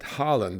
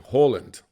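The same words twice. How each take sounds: First: The name is said with English pronunciation. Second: The name is said with Norwegian pronunciation. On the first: This is how the rest of the world should say it. "elsewhere in the world, he insists that Haaland is the way he wants it" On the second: This is how Norwegians may say it. "If you are Norwegian, you may call their mega striker"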